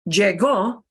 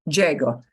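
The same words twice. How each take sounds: First: The stress is on the final syllable. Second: The stress is on the first syllable. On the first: He arrived. The speaker calls it wrong. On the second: I arrive. The speaker calls it right.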